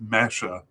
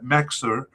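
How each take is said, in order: First: The name is said like 'Mesha', with 'sh'. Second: The name is said like 'Mexer', as written. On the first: The speaker calls it right. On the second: The speaker calls it wrong.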